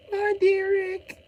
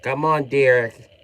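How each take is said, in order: First: Much higher, slow whiny falsetto; squeaky mock coaxing. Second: Said in the usual way. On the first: Coaxing Derek in put-on voice.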